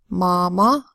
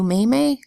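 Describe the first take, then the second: First: The vowels are a broad 'ah' sound. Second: The vowels are a long 'ay' sound. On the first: The speaker calls it right. "All of these make the broad A sound ah" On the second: The speaker calls it wrong. "No, we don't say that"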